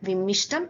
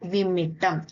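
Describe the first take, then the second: First: The middle consonant is 'sht'. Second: The middle consonant is a doubled 't'. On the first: The speaker calls it wrong. "വിമ്മിഷ്ടം എന്ന വാക്ക് തെറ്റാണ്" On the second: The speaker calls it right. "വിമ്മിട്ടം എന്നതാണ് ശരിയായ രൂപം"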